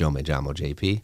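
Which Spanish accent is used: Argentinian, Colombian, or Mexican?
Colombian. It is said in a Colombian Spanish accent. "In Colombia, it'd be"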